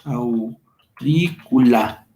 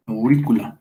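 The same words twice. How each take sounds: First: "aurícula" broken into slow, stretched syllables; very slow, low teacher's demonstration; sounded out slowly. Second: Said in the usual way. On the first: Shown as a demonstration. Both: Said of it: "Nos queda".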